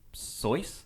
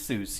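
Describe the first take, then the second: First: The name rhymes with voice. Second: The name does not rhyme with voice. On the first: This is how the name's owner said it. "it rhymes with voice, so Soyce" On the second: This is the common anglicized way to say it. "I think it is Seuss"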